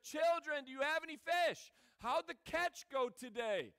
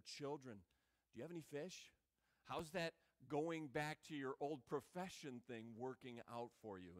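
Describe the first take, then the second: First: Called out loud and high to the boat; loud call across the water. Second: Soft and lower, fond and gentle; tender. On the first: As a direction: shout it to men far out in a boat. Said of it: "he's like". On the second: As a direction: say it softly like a term of endearment. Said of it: "giving a very tender word". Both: Retold or imitated.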